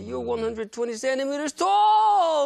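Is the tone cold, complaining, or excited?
excited. It is said in an amazed, excited tone.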